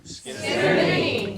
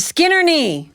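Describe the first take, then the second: First: Crowd laughing repeat. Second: Skin her knee, higher and louder; loud demo. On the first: Real, not acted. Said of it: "You're terrible". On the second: Shown as a demonstration. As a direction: lead the audience line with a laugh. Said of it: "one line that you need to say".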